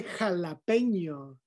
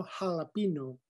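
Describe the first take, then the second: First: Said in the usual way. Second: "jalapino" as American hal-uh-PEE-noh, softer; anglicized pronunciation. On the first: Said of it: "Se dice jalapeño". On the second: Shown as a demonstration. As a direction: say "jalapino" with English h and no ñ. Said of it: "no jalapino".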